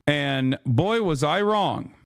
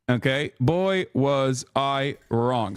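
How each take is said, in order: First: Said in the usual way. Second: Drawn-out slow regret; slow ironic retake; slow dramatic. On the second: Shown as a demonstration. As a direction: stretch each word slowly for effect.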